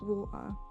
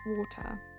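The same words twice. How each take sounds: First: The T in the middle is dropped. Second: The T in the middle is clearly pronounced. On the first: "if I said like water" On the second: "So she made me pronounce my T"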